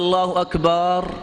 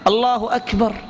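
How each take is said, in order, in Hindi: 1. "Akbar" का आख़िरी स्वर लंबा खींचा जाता है। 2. "Akbar" का आख़िरी स्वर छोटा है। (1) "ये जायज़ नहीं है। ... अकबर ये कुबर की जमा है" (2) "अल्लाह बहुत बड़ा है"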